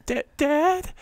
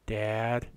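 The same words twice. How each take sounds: First: Much higher, pleading "Da-, Dad?"; emotional "Dad". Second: Imitating a lifeless, deadpan "Dad."; flat wooden "Dad". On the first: Retold or imitated. Showing how a dying daughter should cry out to her dad, high and pleading. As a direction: show the feeling she failed to give the line. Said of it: "she doesn't get ev-, e-, give any emotion". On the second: Mocking an actress's wooden death line, deadpan and emotionless. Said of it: "That's how she says, she goes".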